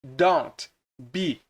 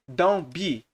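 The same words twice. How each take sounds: First: "don't" with its final T clearly sounded before "be"; fully pronounced T. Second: "don't" without its T, like "don" running into "be"; dropped T. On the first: Teacher showing what fast speakers avoid, T sounded in "don't". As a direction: sound out the T ending "don't", then "be". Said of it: "eles não falam don't be". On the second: Teacher showing how natives talk fast, T dropped from "don't". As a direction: swallow the T in "don't" before "be". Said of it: "geralmente comem esse T aqui". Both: Shown as a demonstration.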